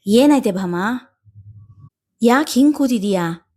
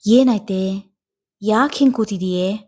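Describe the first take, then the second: First: Concerned asking. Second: Gentle asking. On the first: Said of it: "ಕಂಡು ಕೇಳಿದರು". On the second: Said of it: "ಮತ್ತೆ ಕೇಳಿದಾಗ". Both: A narrator's reading.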